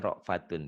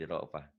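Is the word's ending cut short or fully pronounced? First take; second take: fully pronounced; cut short. First: The word ends with its full ending, -atun. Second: The word ends cut short, on -ah. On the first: The reading continues past this word. "dibaca apa adanya" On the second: The reading stops at this word. "Dihentikan jadi ra'fah"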